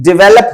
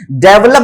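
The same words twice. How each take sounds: First: "डेवलप" as di-VEL-up; short i first in "डेवलप"; correct pronunciation. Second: "डेवलप" as DEV-lup; e in the first syllable of "डेवलप"; wrong pronunciation. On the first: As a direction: stress the middle of "डेवलप". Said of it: "डेवलप होता है". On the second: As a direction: stress at the front of "डेवलप". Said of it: "डेवलप बोलते हैं". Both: Shown as a demonstration.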